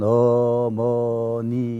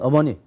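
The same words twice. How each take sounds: First: The word is said slowly. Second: The word is said quickly. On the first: "천천히 하면" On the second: "빨리 하면"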